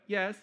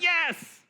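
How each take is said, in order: First: It is said half-heartedly. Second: It is said with enthusiasm.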